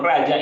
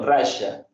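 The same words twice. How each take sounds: First: The middle consonant is said the local way. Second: The middle consonant is said the Rioplatense way. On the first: This is how the speaker's own community says it. "nosotros decimos raya" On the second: This is how people in Argentina and Uruguay say it. "y no raya"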